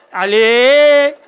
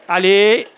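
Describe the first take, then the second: First: Loud, higher cheering Allez!; excited shout. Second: Said in the usual way. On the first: Acted. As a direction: shout Allez! to rally everyone. Cheering the team, louder take.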